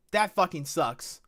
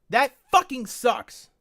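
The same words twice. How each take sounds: First: Said in the usual way. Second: Slower, higher, louder; louder angry repeat. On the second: Real, not acted. Streamer repeating his complaint, louder and fuming. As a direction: lean into it, fuming.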